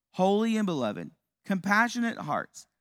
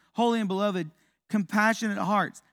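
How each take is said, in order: No difference in how they are said.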